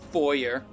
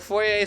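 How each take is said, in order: First: The word ends with an R sound. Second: The word ends without an R sound. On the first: The speaker calls it wrong. "than foyer" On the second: The speaker calls it right. "foyer sounds better"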